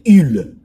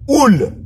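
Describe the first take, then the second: First: The vowel is a French 'u' sound. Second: The vowel is an 'oo' sound. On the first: "si je devais prononcer en français, c'est ul" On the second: "je suis en train de prononcer ça en roumain"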